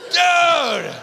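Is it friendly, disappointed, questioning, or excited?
excited. It sounds thrilled and excited.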